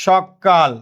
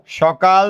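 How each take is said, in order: First: সকাল with a long, held double k, "shok-kal"; forceful doubled consonant. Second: Said in the usual way. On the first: Shown as a demonstration. Teacher showing gemination to class, সকাল said forcefully with doubled k. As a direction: hit the k in সকাল twice as hard, stopping on it before "kal". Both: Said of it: "জোর দিয়ে উচ্চারণ করার জন্য".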